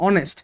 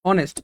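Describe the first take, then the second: No difference in how they are said.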